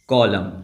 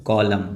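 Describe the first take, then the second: No difference in how they are said.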